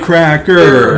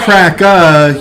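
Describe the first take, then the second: First: The final R is fully pronounced. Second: The final R is dropped. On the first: This way of saying it is offensive. The speaker calls it wrong. "but you can't say it that way" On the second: This way of saying it is acceptable. The speaker calls it right. "you can say it that way"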